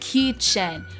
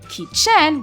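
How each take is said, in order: First: The stress is on the first syllable. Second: The stress is on the second syllable. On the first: The speaker calls it right. "but it's kitchen where the ki, which the first syllable, has a little bit more emphasis" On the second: The speaker calls it wrong. "it's not kitchen where the chen has the uh, stress on it"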